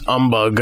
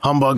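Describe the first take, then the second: First: The word starts without an H sound. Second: The word starts with an H sound.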